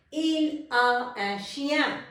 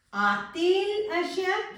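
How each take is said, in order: First: Said in the usual way. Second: "A-t-il un chien?" higher, with a rise on "A-t-il"; rising inverted question. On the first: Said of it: "Let's take an example". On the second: Shown as a demonstration. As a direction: ask "A-t-il un chien?" with a lifted, rising tune. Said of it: "So you need to put hyphen T".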